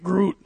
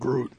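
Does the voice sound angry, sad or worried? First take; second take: angry; sad. First: It is said in an angry voice. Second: It is said in a sad voice.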